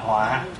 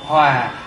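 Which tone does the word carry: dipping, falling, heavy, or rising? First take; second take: heavy; falling. First: The word has a heavy low glottalized tone. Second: The word has a low falling tone. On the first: It means disaster. "thành dấu nặng gọi là họa" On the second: It means to be in harmony. "bỏ dấu huyền thì hòa"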